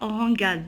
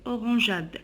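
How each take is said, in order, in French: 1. Le g se prononce dur, comme dans go. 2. Le g se prononce doux, comme un j.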